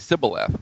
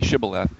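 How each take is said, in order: First: The word begins with an s sound. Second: The word begins with an sh sound. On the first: The speaker belongs to the out-group. The speaker calls it wrong. "the others would say Sibboleth with an S sound" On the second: The speaker belongs to the in-group. The speaker calls it right. "only a Gileadite could say it properly"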